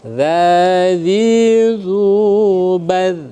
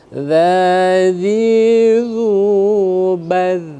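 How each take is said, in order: No difference in how they are said.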